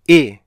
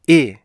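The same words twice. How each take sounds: No difference in how they are said.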